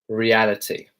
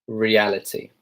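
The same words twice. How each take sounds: No difference in how they are said.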